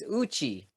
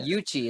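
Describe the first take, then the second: First: The name begins directly with a vowel. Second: The name begins with a y sound. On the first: The speaker calls it right. "It's Uchi" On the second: The speaker calls it wrong. "I've been pronouncing it incorrect. I say Yuchi"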